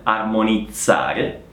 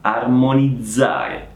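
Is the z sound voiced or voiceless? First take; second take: voiceless; voiced. First: The z sound is voiceless, like ts. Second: The z sound is voiced, with buzzing. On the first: The speaker calls it wrong. "Quindi non armonizzare" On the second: The speaker calls it right. "ma armonizzare"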